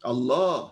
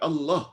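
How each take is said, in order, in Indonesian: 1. Vokal setelah l di tengah itu dipanjangkan. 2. Vokal setelah l di tengah itu dibaca pendek. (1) "Paling kurang dua harakat" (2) "Jangan baca Allah"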